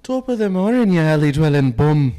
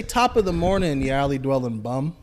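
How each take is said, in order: First: Put-on Irish accent. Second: Lightly Irish prompt; feed the line with a hint of Irish; Irish accent. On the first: Friend performs the requested Irish line, loud and hammed-up. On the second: Shown as a demonstration. Friend feeding the Irish line with a hint of the accent.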